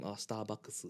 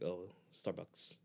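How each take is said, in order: First: Starbucks as sutaabakkusu, in Japanese sounds; Japanese pronunciation of Starbucks. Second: Starbucks said the English way, slowly; English pronunciation of Starbucks. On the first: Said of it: "you have to tell them". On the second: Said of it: "they're like, nani". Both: Shown as a demonstration.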